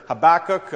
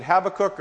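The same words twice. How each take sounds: First: "Habakkuk" stressed on the middle syllable, ha-BAK-kuk; second-syllable stress. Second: "Habakkuk" stressed on the first syllable, HAB-akkuk. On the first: Preacher offering another way to say the prophet's name, "Habakkuk" with second-syllable stress. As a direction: move the weight onto the second syllable of "Habakkuk". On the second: Preacher weighing up a prophet's name, "Habakkuk" with first-syllable stress. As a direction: hit the opening syllable of "Habakkuk". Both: Shown as a demonstration. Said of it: "emphasis on the right syllable".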